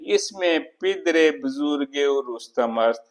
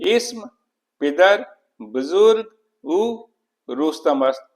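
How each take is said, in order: First: The words are joined by a linking -e vowel. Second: Each word is said separately without linking vowels. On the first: The speaker calls it right. "इजाफत का प्रयोग देखिए एक रिदम पैदा होता है" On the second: The speaker calls it wrong. "बिना इजाफत के पढ़ता हूँ"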